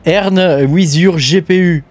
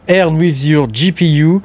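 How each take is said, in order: First: It is said with a French accent. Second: It is said with a good English accent. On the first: The speaker calls it right. "en français" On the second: The speaker calls it wrong. "j'ai utilisé un bon accent anglais"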